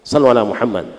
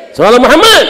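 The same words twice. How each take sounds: First: Said in the usual way. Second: High, loud cry of "Muhammad"; calling the congregation to send blessings, loud and high. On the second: Real, not acted. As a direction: rouse the crowd with it. Call to the congregation.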